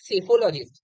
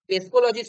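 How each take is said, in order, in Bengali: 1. শব্দটি 's' ধ্বনি দিয়ে শুরু, কোনো 'p' নেই। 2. শব্দটি উচ্চারিত 'p' ধ্বনি দিয়ে শুরু। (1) "পিটা না এখানে সাইলেন্ট" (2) "হবে না"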